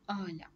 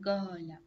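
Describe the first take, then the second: First: The word begins with a glottal stop. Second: The word begins with a hard g sound. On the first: "مصری میگفت به قاله میگفت آلا" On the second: "میگن گالا"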